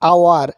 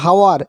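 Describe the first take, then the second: First: The word starts directly with a vowel. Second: The word starts with an h sound. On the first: The speaker calls it right. "আমরা উচ্চারণ করি আওয়ার" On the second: The speaker calls it wrong. "হওয়া উচিত ছিল হাওয়ার"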